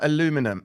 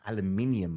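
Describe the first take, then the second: First: The word is said as aluminum, without the extra syllable. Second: The word is said as aluminium, with the extra syllable. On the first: The speaker calls it wrong. "As if I read it like that" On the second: The speaker calls it right. "Aluminium, my friend"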